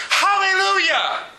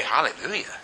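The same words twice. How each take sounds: First: High-pitched, drawn-out cry of praise; imitated heavenly shout. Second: Low, soft, questioning mumble; unenthusiastic congregation. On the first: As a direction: cry it out like a host of elders in heaven. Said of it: "the twenty-four elders shouting". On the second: Retold or imitated. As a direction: say it small and puzzled, imitating a listless churchgoer. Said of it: "We sit here and say".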